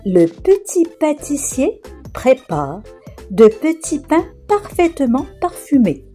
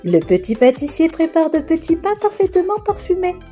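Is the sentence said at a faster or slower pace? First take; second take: slower; faster. First: The sentence is said at a slower pace. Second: The sentence is said at a faster pace.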